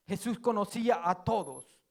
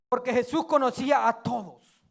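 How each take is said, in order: First: Quiet repeat. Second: Said in the usual way. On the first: Shown as a demonstration.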